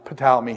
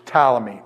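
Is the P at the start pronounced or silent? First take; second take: pronounced; pronounced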